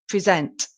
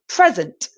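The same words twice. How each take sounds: First: The stress is on the second syllable. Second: The stress is on the first syllable.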